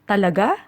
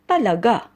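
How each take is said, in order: First: It sounds like a curious, checking question. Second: It sounds like a firm, definite statement. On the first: The speaker wants to confirm something. "used as a question to confirm something, should be said this way" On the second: The speaker affirms that it is true. "if you want to use it as a definite or positive answer"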